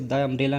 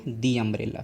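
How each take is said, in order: First: The word 'the' sounds like 'thuh'. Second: The word 'the' sounds like 'thee'. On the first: The speaker calls it wrong. "द umbrella नहीं बोलेंगे" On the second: The speaker calls it right. "क्या बोलेंगे, दी umbrella"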